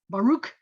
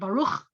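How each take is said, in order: First: The final sound is plain, without throat friction. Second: The final sound is a rough, throaty ch. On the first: The speaker started learning the language late. The speaker calls it wrong. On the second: The speaker sounds like a native speaker. The speaker calls it right.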